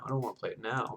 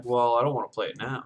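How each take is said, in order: First: Much softer echo of the thought; quiet repeat. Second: Said in the usual way. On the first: Retold or imitated. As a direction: say it again under your breath. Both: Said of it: "I was thinking".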